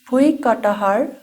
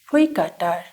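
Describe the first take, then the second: First: The middle 'ha' syllable is pronounced aloud. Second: The middle 'ha' syllable is left out. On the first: This is how the word is written. "the written is bhuikatahar" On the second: This is how the word is actually read. "ha is silence here, so we just read as bhuikatar"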